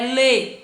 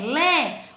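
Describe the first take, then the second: First: The vowel is said with a closed quality. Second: The vowel is said with an open quality. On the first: "timbre fechado" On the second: "é lé. Então é um timbre aberto"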